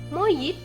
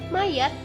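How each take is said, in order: First: The second vowel is an i sound. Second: The second vowel is an a sound. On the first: The speaker calls it wrong. "kata tidak bakunya menjadi" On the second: The speaker calls it right. "lafalan bakunya"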